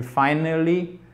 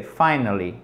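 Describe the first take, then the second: First: "finally" drawn out, stress off the first syllable; wrong word stress. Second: "finally" stressed on FI, then falling; correct word stress. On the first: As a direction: misplace the stress in a slow "finally". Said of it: "C'est pas non plus finally". (« finally » lent, accent tonique mal placé) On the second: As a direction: hit FI and let "nally" drop away. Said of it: "C'est finally". (« finally » accentué sur FI, puis descendant) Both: Shown as a demonstration.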